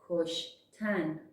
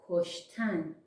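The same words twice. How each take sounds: The two takes are said the same way.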